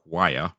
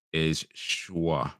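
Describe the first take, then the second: First: Said in the usual way. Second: "choix" said the French way, like shwa; French pronunciation. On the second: Shown as a demonstration. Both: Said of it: "How French we pronounce".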